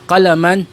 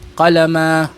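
First: The word ends with a final 'an' sound. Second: The word ends without the final 'n' sound. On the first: The speaker continues on to another word. "binibigkas lamang siya kapag ka ituloy mo yung salita mo" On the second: The speaker stops after this word. "kung wala siyang karugtong at mag-stop ka lang"

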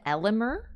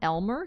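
First: The name is said with three syllables. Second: The name is said with two syllables. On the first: The speaker calls it right. "his name is Elimer" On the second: The speaker calls it wrong. "not Elmer, because everyone calls him Elmer"

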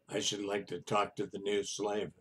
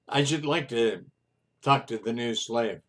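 First: It is spoken in a low, quiet voice. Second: It is spoken at a normal, fuller volume. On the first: The speaker calls it right. "he said in a low voice" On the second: The speaker calls it wrong. "Oh, I'm sorry. Let me do it again"

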